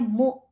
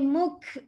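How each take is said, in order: First: The syllable closes with a glottal stop. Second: The syllable closes with a k sound. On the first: The speaker calls it right. "Hamzah mati bukan bunyi ain" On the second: The speaker calls it wrong. "Bukan kaf ya. Kalau kaf dia ada jadi muk"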